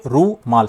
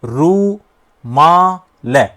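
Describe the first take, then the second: First: रूमाल said slowly as "रू-माल", sound unchanged; syllables split right. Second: रूमाल dragged out very slowly with a wrong break, so its sound changes; wrong syllable split. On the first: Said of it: "सब ध्वनि वही आ रही है". ("रू-माल" धीरे, अक्षर अलग करके) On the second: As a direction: stretch रूमाल apart in the wrong place. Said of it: "ध्वनि बदल गई भाई". (रूमाल को गलत जगह से तोड़कर बहुत धीरे बोलना) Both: Shown as a demonstration.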